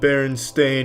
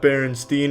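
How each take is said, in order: First: The last syllable sounds like 'stain'. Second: The last syllable sounds like 'steen'. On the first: The speaker calls it right. "but it's Stain" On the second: The speaker calls it wrong. "they all want to pronounce it Steen"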